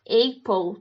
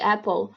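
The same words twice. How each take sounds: First: The vowels are spelling-based and exaggerated. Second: The vowels follow the natural English sound. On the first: The speaker calls it wrong. "tipo Apple também" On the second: The speaker calls it right. "em vez de Apple"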